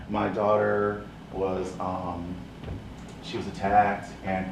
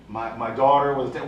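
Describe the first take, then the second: First: Slow, softer, lower voice; timid mother. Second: Said in the usual way. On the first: Retold or imitated. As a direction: speak meekly, afraid to tell it.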